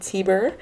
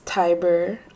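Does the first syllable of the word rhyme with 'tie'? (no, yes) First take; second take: no; yes. First: The first vowel does not sound like 'tie'. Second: The first vowel sounds like 'tie', as in tiger. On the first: The speaker calls it wrong. "I was saying Tiber" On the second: The speaker calls it right. "but it's Tiber. ... Tiger with a B"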